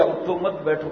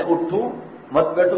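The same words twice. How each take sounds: First: اٹھو مت run together without a stop after اٹھو; pause shifted off اٹھو. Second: اٹھو, a short break, then مت بیٹھو joined; pause after اٹھو. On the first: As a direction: join اٹھو straight onto مت, then بیٹھو. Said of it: "یا اٹھو مت بیٹھو". (اٹھو مت ملا کر، پھر بیٹھو) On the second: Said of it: "کہا ہے یا". (اٹھو کے بعد وقفہ، مت بیٹھو ملا کر) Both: Shown as a demonstration.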